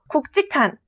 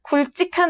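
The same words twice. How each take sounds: First: The first syllable ends with a K sound. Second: The first syllable ends with an L sound. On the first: The speaker calls it right. "국으로 발음" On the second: The speaker calls it wrong. "아니고"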